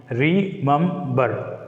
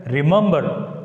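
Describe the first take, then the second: First: "remember" slowly split as re, mem, ber; slow "remember", a gap after each syllable. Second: Said in the usual way. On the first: Shown as a demonstration. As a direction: sound out "remember" in three separate beats. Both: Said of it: "the word remember begin with the prefix".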